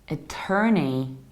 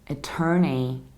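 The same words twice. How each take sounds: Both takes have the same delivery.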